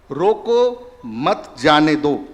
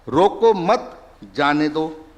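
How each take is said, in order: First: रोको set apart, then मत जाने दो, slowly; pause after रोको. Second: रोको मत joined, then a break before जाने दो; pause after मत. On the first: Doctor quizzing audience with a sentence, pause after रोको. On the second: Doctor showing audience the moved comma, pause after मत. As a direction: slowly, pause between मत and जाने. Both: Shown as a demonstration. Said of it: "coma का ही तो इधर से उधर हुआ".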